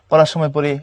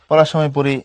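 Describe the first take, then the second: The two takes are said the same way.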